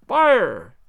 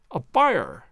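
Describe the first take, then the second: First: Loud group yell of fire; shouting fire to flush him out. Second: Said in the usual way. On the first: Acted. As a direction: call out fire at full voice. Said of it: "we all yelled". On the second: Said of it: "join in the cry".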